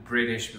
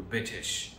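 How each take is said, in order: First: Said in the usual way. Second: "بيتش" with the R swallowed; British dropped letters. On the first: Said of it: "بدل ما يقول بريتش". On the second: Shown as a demonstration. Teacher showing how British speech hides letters, R dropped in "بيتش". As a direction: say "بيتش" as British speakers do, hiding the R. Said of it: "فيها إخفاء كبير للحروف".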